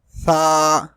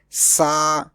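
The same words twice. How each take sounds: First: The first consonant has no whistling hiss. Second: The first consonant has a whistling hiss. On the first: The speaker calls it right. "Sa without whistle" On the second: The speaker calls it wrong. "Some people pronounce it like Sa with whistle, which is wrong"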